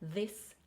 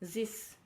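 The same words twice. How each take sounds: First: Both words begin with th, tongue between teeth. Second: Both words begin with a hissing s sound. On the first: The speaker calls it right. "put your tongue between your teeth" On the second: The speaker calls it wrong. "if you are pronouncing it as a as a s"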